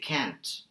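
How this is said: It has a flat American 'a' vowel. "An American would say can't"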